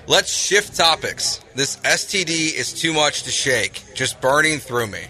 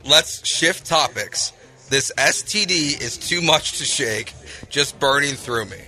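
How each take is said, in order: First: It is said at normal speed. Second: It is said more slowly.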